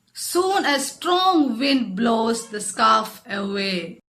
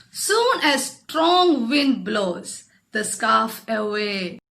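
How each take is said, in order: Both takes have the same delivery.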